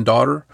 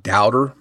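First: Said in the usual way. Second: "doubter" for daughter, OW in the first syllable; accented "daughter". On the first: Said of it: "more like doubter than daughter". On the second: Shown as a demonstration. Host imitating the caller's word daughter, accented as "doubter". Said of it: "had an accent on the word daughter".

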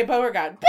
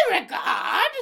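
First: Said in the usual way. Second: High, mock British accent; hammed-up British butler call, R dropped. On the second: Shown as a demonstration. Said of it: "say it in this British accent".

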